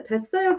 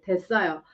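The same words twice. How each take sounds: First: 됐어요 pitched high and blunt; straightforward. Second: Said in the usual way. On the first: Shown as a demonstration. Teacher showing students a blunt refusal, pitched high. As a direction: snap out 됐어요 high and short. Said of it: "can be a little bit straightforward". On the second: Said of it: "You can say it like that too".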